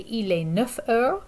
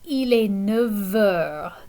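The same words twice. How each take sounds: First: Neuf ends in an F sound before heures. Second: Neuf ends in a V sound before heures. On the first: The speaker calls it wrong. "we don't say" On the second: The speaker calls it right. "The F transforms to a V sound"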